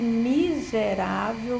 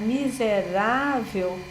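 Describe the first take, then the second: First: The strongest stress is on the first syllable. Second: The strongest stress is on the third syllable. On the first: The speaker is gripped by a strong negative emotion. "é muito comum ele deslocar esse acento pelo mi" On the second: It is a neutral, unemotional use of the word. "que é o rá, que é a sílaba tônica"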